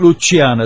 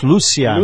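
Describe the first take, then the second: First: The name is pronounced the English way. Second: The name is pronounced the Spanish way. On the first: The speaker calls it wrong. "It's not Luciana" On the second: The speaker calls it right. "it's Luciana in Spanish"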